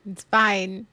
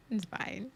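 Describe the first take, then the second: First: Said in the usual way. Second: It's fine dropped to a much softer murmur; quiet resignation. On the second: Real, not acted. Repeating to herself after the argument, softly resigned.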